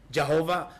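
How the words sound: The name is said the Batak way. "Logatnya saja dalam bahasa Batak"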